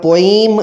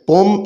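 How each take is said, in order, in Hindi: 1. यह शब्द बहुत भारी स्ट्रेस के साथ बोला गया है। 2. यह शब्द हल्के, स्वाभाविक स्ट्रेस के साथ बोला गया है। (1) "बहुत ज़्यादा जो है इसको स्ट्रेस दे दिया जाता है वो नहीं देना" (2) "पोएम असल है"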